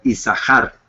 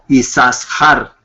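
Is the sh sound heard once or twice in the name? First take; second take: once; twice. First: The sh sound is heard only once. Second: The sh sound is heard twice. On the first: The speaker calls it right. "como si fuera una sola shin" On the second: The speaker calls it wrong. "y no"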